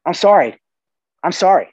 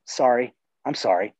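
First: Louder, higher, emphatic apology; emphatic genuine apology. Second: Genuine apology. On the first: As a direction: press the apology home firmly. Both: Shown as a demonstration. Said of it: "super powerful word if it's genuine".

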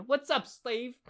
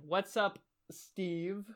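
First: Higher-pitched, goofy weird voice. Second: "Steve" set apart after a pause, softer; careful pronunciation. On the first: Acted. Host reads out a listener's email greeting, in a weird voice. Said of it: "like, a weird voice". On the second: Shown as a demonstration. Host rereads the misheard email greeting, pronouncing it carefully. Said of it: "Let me pronounce that".

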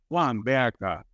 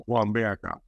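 First: Mimicking a boy's gruff voice. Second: Put-on lower, heavy voice for the boy; lower, gruff imitation of the child; voicing the autistic nephew's gruff way of calling; imitating a boy's gruff voice. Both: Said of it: "porque habla así muy grueso".

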